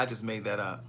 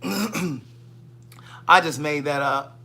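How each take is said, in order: First: Said in the usual way. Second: Very slow teasing drawl of I just made that up; slow drawn-out confession. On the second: Shown as a demonstration. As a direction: stretch each word of I just made that up out slowly.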